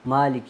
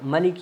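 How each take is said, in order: First: The first vowel is held long. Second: The first vowel is short. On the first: "खड़ी ज़बर को हमने दो या तीन अलिफ की मदार लंबा करना" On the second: "मलिक यौमिद्दीन मतलब पढ़ते हैं लोग, वो क़िरात भी सही है"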